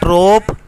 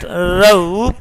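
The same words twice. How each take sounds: First: "rope" as "rawp", one pure vowel; wrong vowel. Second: "rope" as "roh-oop"; correct vowel. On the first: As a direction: say "rope" without a glide. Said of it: "is not rope". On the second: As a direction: glide the O in "rope" towards "oo". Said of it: "but rope". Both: Shown as a demonstration.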